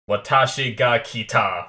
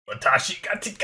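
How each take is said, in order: First: The last part of the phrase is said clearly. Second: The last part of the phrase is mumbled. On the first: The speaker calls it right. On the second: The speaker calls it wrong.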